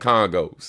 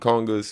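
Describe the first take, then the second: First: The word ends with an 'oh' vowel sound. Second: The word ends with an 'ah' vowel sound. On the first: This is how local people say it. "That's how people here pronounce it" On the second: This is the usual name elsewhere. "we don't call them congas"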